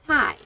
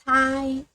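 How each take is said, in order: First: The pitch falls sharply from high to low. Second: The pitch stays high and level.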